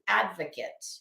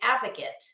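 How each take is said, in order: First: The word is said with a clear D sound. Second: The word is said without a D sound. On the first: The speaker calls it right. "advocate has a D in it" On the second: The speaker calls it wrong. "It's not a fucking advocate"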